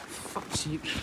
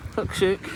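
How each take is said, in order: First: Muttered curse. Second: Said in the usual way. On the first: Real, not acted. Curses after slipping up.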